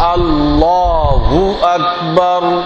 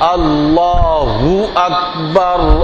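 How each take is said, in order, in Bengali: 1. আল্লাহ-এর পরে একটা গোলাকার উ আসে, ঠোঁট প্রায় মিলে যায়। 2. আল্লাহ-এর পরে একটা গোলাকার উ আসে, ঠোঁট প্রায় মিলে যায়।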